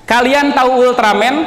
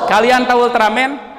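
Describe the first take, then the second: The two takes are said the same way.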